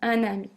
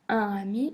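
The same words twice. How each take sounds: First: A linking consonant joins the two words. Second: No consonant links the two words. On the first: The speaker calls it right. "mais un ami" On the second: The speaker calls it wrong. "ne devient pas un ami"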